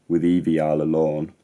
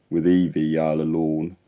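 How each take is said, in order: The two takes are said the same way.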